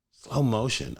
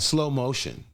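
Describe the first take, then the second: First: Said in the usual way. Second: Drawn out, dreamy "slow motion". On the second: Shown as a demonstration. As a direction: stretch "slow motion" like it's slowed down.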